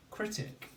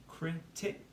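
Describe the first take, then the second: First: Said in the usual way. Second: "critic" in two detached beats, higher, rising; syllable by syllable. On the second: Shown as a demonstration. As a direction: pause between "cri" and "tic". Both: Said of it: "say the syllables".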